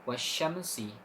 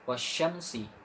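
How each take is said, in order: The two takes are said the same way.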